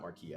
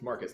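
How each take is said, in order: First: The name is said like Marquis. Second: The name is said like Marcus. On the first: The speaker calls it wrong. "not Marquis" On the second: The speaker calls it right. "it's Marcus not Marquis"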